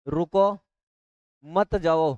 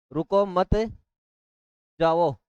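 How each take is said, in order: First: "रुको", long pause, then "मत जाओ" as one phrase; pause after रुको. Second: "रुको मत" as one phrase, long pause, then "जाओ"; pause after मत. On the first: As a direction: split it after "रुको", keeping "मत जाओ" together. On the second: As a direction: split it after "मत", leaving "जाओ" on its own. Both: Shown as a demonstration. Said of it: "पढ़ लिया यहाँ पर चंद्रबिंदु comma लगा के".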